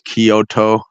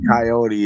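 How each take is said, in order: First: The name sounds like the city 'Kyoto'. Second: The name sounds like the word 'coyote'. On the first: The speaker calls it right. "it's Kyoto" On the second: The speaker calls it wrong. "It's not like Coyote"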